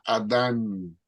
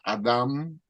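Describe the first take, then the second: First: The name ends with an n sound. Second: The name ends with an m sound. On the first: This follows the Spanish spelling rules. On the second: This is the older spelling of the name.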